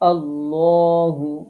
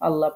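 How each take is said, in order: First: The L is heavy, with lips rounded. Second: The L is thin, with lips unrounded. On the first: The speaker calls it right. "ল পড়তে হবে, পোর করতে হবে, ঠোঁটটা গোল করতে হবে" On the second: The speaker calls it wrong. "তখন আল্লাহ পড়া যাবে না"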